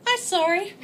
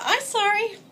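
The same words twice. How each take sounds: First: Put-on high babyish whine; baby talk. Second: Put-on even higher baby voice; baby talk. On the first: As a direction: say it like a little child. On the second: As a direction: coo it like a toddler. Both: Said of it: "spoken exactly like that".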